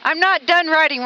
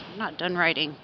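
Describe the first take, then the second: First: Louder, higher, insisting; loud, insistent. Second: Soft muttered grumble; quiet, low. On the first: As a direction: declare it out loud, stubborn. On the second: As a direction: mumble it low, to yourself. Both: Real, not acted.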